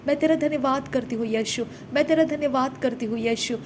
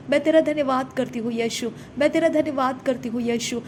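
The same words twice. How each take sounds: The two takes are said the same way.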